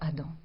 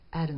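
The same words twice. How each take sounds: First: Adam is said with a French pronunciation. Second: Adam is said with an English pronunciation. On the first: "nous disons Adam" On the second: "les Anglais disent Adam"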